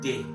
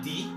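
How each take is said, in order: First: The vowel sounds like 'ay'. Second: The vowel sounds like 'ee'. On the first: The speaker calls it right. "pronounced as D A Y in English" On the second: The speaker calls it wrong. "Not di"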